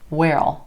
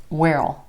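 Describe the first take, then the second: First: Will is reduced and joined onto where. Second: The same.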